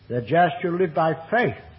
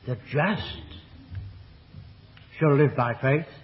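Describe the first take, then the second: First: The stress falls on the word faith. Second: The stress falls on the word just. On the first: Faith, not law, is the way to live. "contrasted with law" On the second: It is the just who live by faith. "because God is there shown to be not only just"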